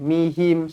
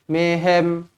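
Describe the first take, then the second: First: The vowels sound like i. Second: The vowels sound like e. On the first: The speaker calls it right. "sebut betul-betul" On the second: The speaker calls it wrong. "jangan mehem"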